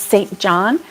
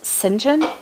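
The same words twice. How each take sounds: First: "Saint John" slow and in full; "Saint John" as two separate words, unhurried. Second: "St. John" said SIN-jin, rising at the end; "St. John" as one word, Sinjin, lifted. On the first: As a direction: say "Saint John" as spelt, SAYNT JON. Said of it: "yeah, it's Saint John". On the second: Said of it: "languages it's St. John". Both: Shown as a demonstration.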